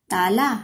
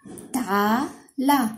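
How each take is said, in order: First: Said in the usual way. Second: ताला drawn out very slowly, mouth wide open; sounding out slowly. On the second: Shown as a demonstration. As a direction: stretch each syllable of ताला. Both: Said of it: "मुंह को ऐसे खोल के बोलेंगे".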